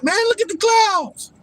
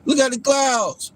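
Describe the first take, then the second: First: Much higher put-on voice, hammed-up awe; mocking gawking people. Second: Higher, slow, mock awe; mocking gawking people. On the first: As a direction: squeal it like a dazzled fool. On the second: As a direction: drag it out like a starstruck fool. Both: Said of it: "People like".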